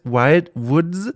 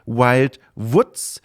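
First: Woods is said like the English word. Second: Woods is said in a Franconian German way. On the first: It means the wild forests. The speaker calls it right. "Aber es heißt Wild Woods, also die wilden Wälder" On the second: It sounds like the word for a little pig. The speaker calls it wrong. "weil ich das so ausspreche mit meiner süddeutsch-fränkischen Art wie die Woods, das kleine Schweinchen"

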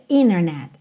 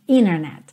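No difference in how they are said.

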